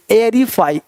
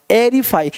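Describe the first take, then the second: No difference in how they are said.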